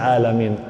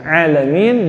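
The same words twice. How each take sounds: First: It begins with a plain glottal stop. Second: It begins with a throaty ain sound. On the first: Pain. The speaker calls it wrong. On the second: The universe. The speaker calls it right.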